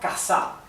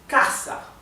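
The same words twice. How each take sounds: First: The stress is on the last syllable. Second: The stress is on the first syllable. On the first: The speaker calls it wrong. "If it were casa, it would be aguda because the accent would be in the, at the end" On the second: The speaker calls it right. "It is casa. The accent is here, so it is grave"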